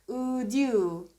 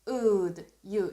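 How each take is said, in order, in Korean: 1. 두 단어는 쉬지 않고 이어서 발음합니다. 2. 두 단어는 잠깐 쉬고 따로 발음합니다.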